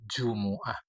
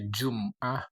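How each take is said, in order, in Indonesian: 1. Vokal setelah m adalah u. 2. Tidak ada vokal setelah m. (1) "yang afsah paling fasih adalah Jumu'ah" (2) "Bisa dibaca"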